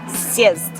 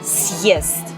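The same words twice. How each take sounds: First: The vowel follows the consonant with no glide. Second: A 'y' glide separates the consonant and vowel. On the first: The speaker calls it wrong. "If there was no symbol here, it would be siest" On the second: The speaker calls it right. "And with symbol?"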